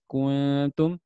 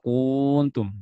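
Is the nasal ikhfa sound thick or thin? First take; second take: thin; thick. First: The nasal sound is light and thin. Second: The nasal sound is heavy and thick. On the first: The speaker calls it right. "harusnya ikhfanya tipis" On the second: The speaker calls it wrong. "baca tebal"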